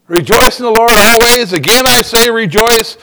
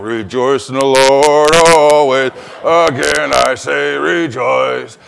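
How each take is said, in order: First: Sarcastic. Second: Slow, lower mock-cheerful chant; grudging sing-song. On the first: Retold or imitated. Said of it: "you're thinking, Really?". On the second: Driver in potholes, slow low grudging sing-song. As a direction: grit your teeth through the words. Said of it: "you're hitting potholes and ruts and you're going".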